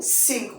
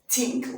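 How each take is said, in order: First: The word begins with an s sound. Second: The word begins with a t sound. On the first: "sink with s" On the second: "think with t"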